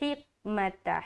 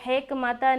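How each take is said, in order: First: The first vowel is a clear 'i'. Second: The first vowel sounds close to 'e'. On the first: The speaker calls it right. "बल्कि हिकमता" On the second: The speaker calls it wrong. "हिकमता नहीं बोलना"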